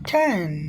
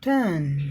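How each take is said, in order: First: The first consonant has a strong puff of air. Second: The first consonant has no puff of air.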